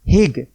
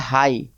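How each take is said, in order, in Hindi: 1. इसका उच्चारण छोटे स्वर और अंत में g के साथ होता है। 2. इसका उच्चारण लंबे स्वर के साथ होता है और इसमें g नहीं है। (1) "कहीं आप लोग ऐसा मत बोल देना हिग" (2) "ये है हाई"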